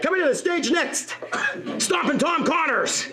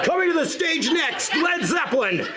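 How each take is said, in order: First: Mock-epic stage introduction; concert announcer. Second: Big booming rock concert announcer; hammed-up stadium announcer call. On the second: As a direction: announce the headliner to a roaring crowd. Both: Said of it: "it sounded like a rock concert".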